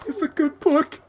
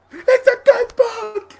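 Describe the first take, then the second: First: Small high lemur voice. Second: Very high, slow lemur cry; louder lemur squawk. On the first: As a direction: squeak it like a cartoon lemur. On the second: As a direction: squawk it out drawn long. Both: Retold or imitated. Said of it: "then the lemur was like".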